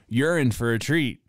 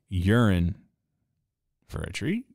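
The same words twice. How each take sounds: First: It starts as two words, 'you're in'. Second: It starts as one word, 'urine'. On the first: Something nice is coming. "you're like, oh, really? Cool" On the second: It refers to pee. "like pee"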